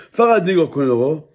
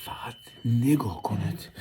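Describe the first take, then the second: First: "فقط نگاه کنید آقا" called louder, "فقط" stressed. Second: Whispered "فقط نگاه کنید" in no voice. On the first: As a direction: announce it to the viewers. First take of the line, called out. ("فقط نگاه کنید آقا" با صدای بلند) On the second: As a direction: hush it like a secret to viewers. Repeats the line whispered. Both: Real, not acted.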